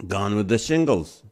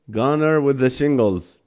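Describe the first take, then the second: First: Said in the usual way. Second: "Goner" said as GAH-ner, an extra syllable on "Gone"; slip of the tongue. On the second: Real, not acted. Streamer trips over the pun title, saying "Goner" by mistake. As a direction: stumbles into "Goner" with a tacked-on -er.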